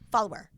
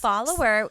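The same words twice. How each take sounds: First: The word is squeezed into two syllables. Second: The word is said with three full syllables. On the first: "but he says follower" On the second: "should have three syllables"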